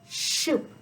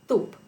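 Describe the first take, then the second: First: The s sound escapes through the tongue's sides. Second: The s sound is made between the front teeth. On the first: "air escapes through the sides of the tongue" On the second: "A frontal lisp is when the tongue is sticking out between the front teeth"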